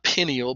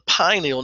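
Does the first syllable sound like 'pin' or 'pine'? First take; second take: pin; pine. First: The first syllable sounds like 'pin'. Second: The first syllable sounds like 'pine'. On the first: The speaker calls it wrong. "not pineal" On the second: The speaker calls it right. "it is called the pineal"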